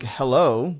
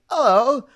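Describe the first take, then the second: First: The word begins with an H sound. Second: The word begins without an H sound.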